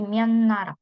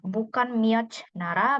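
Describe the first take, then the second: First: The first word ends in an n sound. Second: The first word ends in a t sound. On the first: The speaker calls it right. "tapi myeon nara" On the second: The speaker calls it wrong.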